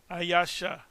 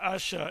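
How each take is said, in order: First: The word is said with three syllables. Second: The word is said with two syllables. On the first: The speaker calls it right. "It's supposed to be Ayasha" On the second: The speaker calls it wrong. "It's not Asha"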